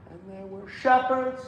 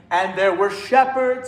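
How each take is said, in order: First: "and there were" tossed away softly before "shepherds"; underplayed pickup. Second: "and there were" said out firmly, leading into "shepherds"; pickup brought out. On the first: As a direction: swallow "and there were", sound only "shepherds". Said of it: "it's not". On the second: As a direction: bring out "and" on the way to "shepherds". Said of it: "bring it out". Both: Shown as a demonstration.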